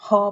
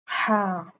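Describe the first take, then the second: First: The vowel sounds rounded, like 'haw'. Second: The vowel sounds plain and open, like 'ha'. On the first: The speaker calls it wrong. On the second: The speaker calls it right.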